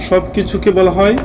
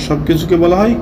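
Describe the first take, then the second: No difference in how they are said.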